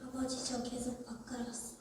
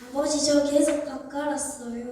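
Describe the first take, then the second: First: It is said calmly, without anger. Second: It is said with audible anger.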